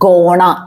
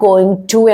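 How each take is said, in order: First: The words are blended into one short word. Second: Each word is said fully and separately. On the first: The speaker calls it right. "ഗോണ എന്ന് ഉപയോഗിക്കണം" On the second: The speaker calls it wrong. "എന്നല്ല നമ്മൾ ശരിക്കും പറയേണ്ടത്"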